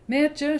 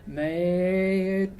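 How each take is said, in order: First: High, loud call of a name. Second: Slow, drawn-out creepy man's voice. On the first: Vanessa calls to Mertje next door, loud and high. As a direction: call out to the girl in the next room. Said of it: "she calls out". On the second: Vanessa's call comes out like a creepy slow-talking man. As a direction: let it come out wrong, like a creepy man. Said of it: "some creepy, slow-talking, joking man's". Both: A narrator's reading.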